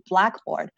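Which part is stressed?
black. The stress is on black.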